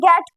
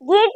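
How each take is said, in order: First: The vowel is a short 'e' sound. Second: The vowel is a long 'ee' sound. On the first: The speaker calls it right. "गेट पढ़ना है" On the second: The speaker calls it wrong. "गीट नहीं पढ़ना"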